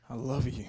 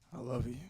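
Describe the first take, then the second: First: It is said with high, full intensity. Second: It is said with low, minimal intensity.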